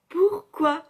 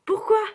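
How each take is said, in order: First: Falling, resigned question; dismayed why. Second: High, loud squeal of disbelief; exasperated why. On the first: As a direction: sigh it out, defeated. Repeats the outraged question. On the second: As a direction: shriek it in outrage. Outraged at Ron's lisped voice. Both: Real, not acted.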